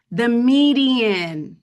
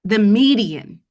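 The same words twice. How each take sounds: First: MEDIAN stretched very slowly, falling at the end; emotional, drawn-out emphasis. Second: MEDIAN pushed out louder, with a falling tune; emotional emphasis. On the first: Presenter overcome while repeating the statistic, drawn-out emotional emphasis. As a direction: dwell on MEDIAN, long and heavy with feeling. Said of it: "just saying it out loud and just repeating it". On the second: Presenter repeating a painful statistic to the group, emotional emphasis. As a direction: repeat it with feeling, landing hard on MEDIAN. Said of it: "I don't know why I'm getting emotional".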